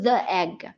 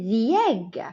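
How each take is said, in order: First: 'The' is said with a short 'uh' vowel. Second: 'The' is said with a long 'ee' vowel. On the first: The speaker calls it wrong. "ما نقدرش نقولوا the egg" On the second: The speaker calls it right. "but we say the egg"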